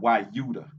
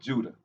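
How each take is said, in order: First: The word begins with a Y sound. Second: The word begins with a J sound.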